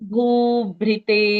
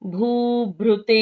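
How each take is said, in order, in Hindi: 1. दूसरा अक्षर 'bhri' जैसा सुनाई देता है। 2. दूसरा अक्षर 'bhru' जैसा सुनाई देता है। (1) "अगर भ्री बोलें तो कैसा होगा?" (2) "और दूसरा उच्चारण है"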